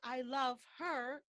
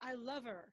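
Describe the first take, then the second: First: The h in 'her' is clearly pronounced. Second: The h in 'her' is dropped entirely. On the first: The speaker calls it wrong. "We don't say" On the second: The speaker calls it right. "Here the H becomes silent"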